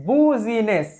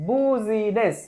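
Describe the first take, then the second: No difference in how they are said.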